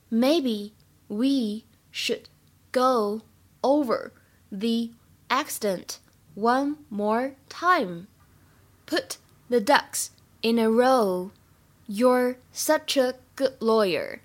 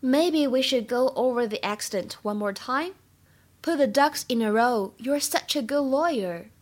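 First: Slow, word by word, for learners; slow practice reading. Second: Said in the usual way. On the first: Shown as a demonstration. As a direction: spell it out slowly so students can follow. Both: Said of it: "今天我们来学这样一个句子".

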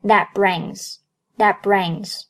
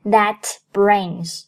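First: "that brings" with the t of "that" held, not released; "that brings" joined up, no burst on the t; unreleased t. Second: "that brings" with the final t of "that" released; "that brings" unlinked, with a clear t before the b; t fully released. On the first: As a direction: slowly link "that brings", stopping the t silently before b. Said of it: "破音t失去爆破". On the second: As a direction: pronounce "that brings" as two separate words, t audible. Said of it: "不读作that brings". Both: Shown as a demonstration.

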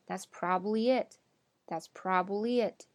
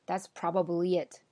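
First: Probably squeezed to PROB-lee; probably with no middle "ba"; reduced form. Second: Probably in full as PROB-a-blee; probably with the middle "ba" sounded; full form. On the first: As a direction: say probably in two syllables. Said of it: "我们说". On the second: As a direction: keep all three syllables in probably. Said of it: "你不用说". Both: Shown as a demonstration.

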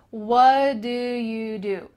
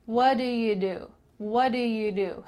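First: Slow, barely moving lips on "What do you do"; "What do you do" slow and mumbled as one chunk; slow lazy lips. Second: "What do you do" at normal speed with little lip movement; "What do you do" quick and mumbled; lazy lips. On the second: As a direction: let "What do you do" slide out linked. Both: Shown as a demonstration. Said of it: "Notice my lips aren't really moving much here".

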